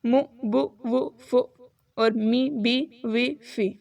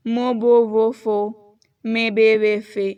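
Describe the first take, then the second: First: مو بو وہ فو with short Arabic u; pure Arabic short vowels. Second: مو بو وہ فو and مے بے وے فے with Urdu long vowels; the wrong Urdu way, loud and slow. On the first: Teacher giving correct Arabic vowels. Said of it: "عربی میں اسے پڑھیں گے". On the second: Teacher showing wrong Persian-Urdu vowels. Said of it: "اس طرح نہیں پڑھنا". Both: Shown as a demonstration.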